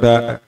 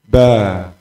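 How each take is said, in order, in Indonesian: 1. Kata itu berakhir dengan hamzah. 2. Kata itu berakhir dengan vokal terbuka. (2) "tanpa hamzah"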